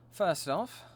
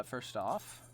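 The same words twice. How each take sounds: First: Mock British accent, lightly put on; bad British accent. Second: Said in the usual way. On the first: Streamer repeating herself before upgrading gear, in a shoddy British accent. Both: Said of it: "a shitty British accent".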